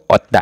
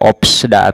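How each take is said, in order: First: Only a t comes before da. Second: A p and an s come before da. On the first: "atau otda. Salah" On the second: "Tidak opsda ... Salah"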